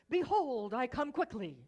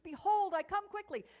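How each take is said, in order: First: It is said with a little extra energy. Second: It is said with full, maximum energy.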